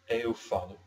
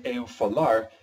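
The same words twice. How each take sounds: First: Eu falo said cleanly with falo stressed on FA; correct Portuguese. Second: Eu falar said as the wrong form, louder and stressed on LAR. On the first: Teacher modeling the correct form for learners, clear and careful. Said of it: "the correct grammatical way of saying". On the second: Teacher showing learners the wrong form, slightly emphatic. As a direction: show the wrong eu falar as a warning. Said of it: "horrifying to the ears". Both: Shown as a demonstration.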